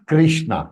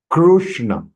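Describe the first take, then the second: First: The first syllable sounds like 'kri'. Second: The first syllable sounds like 'kru'. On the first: The speaker calls it wrong. "It is not Krishna. Kri nahi hai" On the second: The speaker calls it right. "In between Kru, then half Murdhanya Sha"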